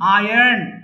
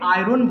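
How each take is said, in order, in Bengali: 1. r শব্দের শেষের দিকে উচ্চারণ করা হয়। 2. r শব্দের মাঝখানে উচ্চারণ করা হয়। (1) "যদি আমেরিকান উচ্চারণ যান আয়ার্ন" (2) "আয়রনকে আমরা বলি আয়রন বলি"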